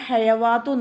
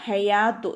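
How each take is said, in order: First: A 'w' sound is pronounced inside the word. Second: No 'w' sound is pronounced inside the word. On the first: The speaker calls it wrong. "ഇവിടെ ഹയവാത്തു നോദിപ്പോവരുത് കേട്ടോ" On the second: The speaker calls it right. "ഈ വാവ് സായിദയാണ്, ഒഴിവാക്കേണ്ടതാണ്"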